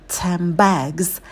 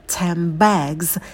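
Both takes have the same delivery.

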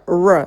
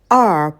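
First: Only the bare consonant sound is said. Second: The full alphabet name of the letter is said. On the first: The speaker calls it wrong. "вот тоже будто бы звук «р»" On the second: The speaker calls it right. "как в алфавите, звучит эта буква «р»"

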